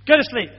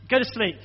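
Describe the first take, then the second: First: Louder, firm order; firm dad command. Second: Said in the usual way. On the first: Retold or imitated. Father ordering his sick child to bed, louder and firm. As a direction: close it down like a tired dad. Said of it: "That's the nighttime". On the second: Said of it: "My day, my nighttime one".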